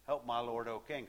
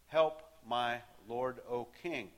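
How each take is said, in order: First: A touch of tired begging, quieter; softer plea. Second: Pleading cry. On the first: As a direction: repeat the plea as if worn out. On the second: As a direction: call up to the king, begging. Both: Acted. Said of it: "So she's crying out to him".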